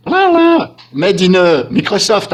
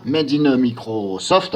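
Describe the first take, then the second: First: High, loud "Made in Microsoft" in an English accent; excited mock call. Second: "Made in Microsoft" said very slowly in an English accent; careful English. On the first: Real, not acted. YouTuber mocking Microsoft, high loud English accent. Jokes about Microsoft update. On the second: Shown as a demonstration. YouTuber saying "Made in Microsoft" in English, carefully. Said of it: "Cette fois-ci, je le dis bien".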